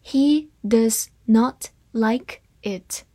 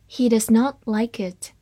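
First: Slow, word-by-word model reading; spaced-out teaching pace; slow read-through. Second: Said in the usual way. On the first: Shown as a demonstration. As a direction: say each word separately and slowly. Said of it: "好，慢读一遍".

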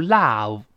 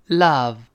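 First: "love" with a wide-open "ah", like "lahv"; over-open the vowel in "love"; wrong open vowel. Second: "love" with a relaxed "uh"; natural short vowel. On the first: Teacher showing the mistake in love, mouth too wide. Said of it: "我们说不要读". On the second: Teacher modelling love for students, relaxed vowel. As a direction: open the mouth only slightly for "love". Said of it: "自然张开". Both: Shown as a demonstration.

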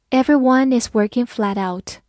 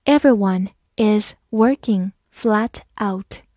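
First: Said in the usual way. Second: Slow, word by word with gaps; slow reading. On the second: Shown as a demonstration. Teacher reads along with learners, slow reading. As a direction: take it slowly, separating each word. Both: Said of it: "好，慢慢来读".

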